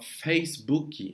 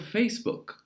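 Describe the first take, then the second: First: An extra vowel sound follows the final K. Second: The word ends cleanly on the K sound. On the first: The speaker calls it wrong. "Tem muita gente que fala Facebook" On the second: The speaker calls it right. "A palavra é com K. Então, Facebook"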